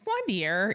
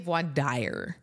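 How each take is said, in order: First: The word ends without an 'eye-er' sound. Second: The word ends with an 'eye-er' sound. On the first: It is the usual pronunciation. The speaker calls it right. "But it's not. So it's voidier usually" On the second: It follows the English spelling. The speaker calls it wrong. "a lot of people say voidier. Because that's what it looks like in English"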